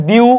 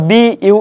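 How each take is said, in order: First: "বিউ" run together as a single beat; one syllable. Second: "বি ইউ" as two separate beats; two syllables. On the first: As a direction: glide straight through "বিউ" without a break. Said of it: "এভাবে পড়তে পারো". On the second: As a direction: split it into "বি" and then "ইউ". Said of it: "কিংবা বি ইউ এভাবে". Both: Shown as a demonstration.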